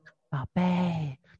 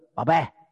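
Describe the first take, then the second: First: It is said softly and gently. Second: It is said loudly and harshly. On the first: It expresses tender affection. The speaker calls it right. "你都会轻声细语的" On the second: It sounds cold rather than loving. The speaker calls it wrong. "不是"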